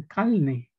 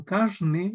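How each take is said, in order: First: "calne": the r before the n turned into an l. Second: "carne" with a clear tapped r before the n; standard pronunciation. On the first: Teacher showing students a dialect variant: r said as l. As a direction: say "calne", swapping the r for a clear l. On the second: Teacher to students, demonstrating dialects: careful "carne" with the r. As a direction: say "carne" carefully, r fully sounded. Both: Shown as a demonstration. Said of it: "otros dirán".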